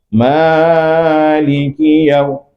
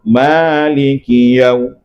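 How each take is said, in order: First: The first vowel is stretched far too long. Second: The first vowel is held two beats only. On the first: The speaker calls it wrong. "Itu lebih itu" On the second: The speaker calls it right. "Dua harakat itu"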